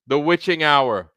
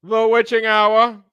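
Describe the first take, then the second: First: Put-on light mid-Atlantic accent, a touch high; a hint of old-time mid-Atlantic accent. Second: Put-on slow, high, theatrical mid-Atlantic accent; hammed-up old-Hollywood mid-Atlantic accent, drawn out. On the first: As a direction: ease into a mid-Atlantic American lilt. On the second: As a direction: savor each word in a full mid-Atlantic drawl. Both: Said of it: "in my mid-Atlantic American accent".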